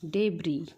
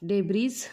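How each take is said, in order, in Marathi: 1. शब्द स्वराने संपतो, s शिवाय. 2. शब्दाच्या शेवटी अतिरिक्त s आवाज येतो. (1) "ह्या शब्दाचा उच्चार काय होतो बघा डेब्री" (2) "डेब्रीज नाही"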